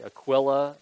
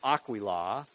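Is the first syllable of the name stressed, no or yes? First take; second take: no; yes. First: The stress is not on the first syllable. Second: The stress is on the first syllable. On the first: The speaker calls it wrong. "they would say Aquila and Priscilla. I never liked the pronunciation of Aquila" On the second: The speaker calls it right. "It's the emphasis on the first ah"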